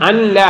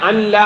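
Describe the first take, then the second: No difference in how they are said.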